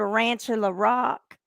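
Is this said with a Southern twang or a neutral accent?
twang. It is said with a Southern country twang. "I can have twang"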